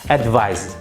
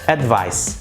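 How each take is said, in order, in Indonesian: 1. Kata ini berakhir dengan bunyi z. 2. Kata ini berakhir dengan bunyi s yang kuat. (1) "cenderung ke, uh, ke suara atau ke bunyi z. Advice begitu" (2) "Jadi s-nya itu lebih kuat. Advice gitu"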